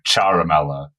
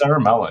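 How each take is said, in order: First: The name is said with an Italian pronunciation. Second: The name is said with an English pronunciation. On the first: This is the name's original pronunciation. "if you said it in like the Italian" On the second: This is how most people say the name. "it got anglicized, so it's like everyone says Saramella"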